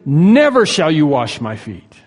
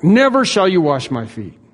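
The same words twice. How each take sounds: First: NEVER hit hard and held, slow and louder; Peter's firm no, stress on Never; emphatic refusal. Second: Never punched, louder and higher; emphatic repeat. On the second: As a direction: insist again with force on Never. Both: Retold or imitated. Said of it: "Very emphatic".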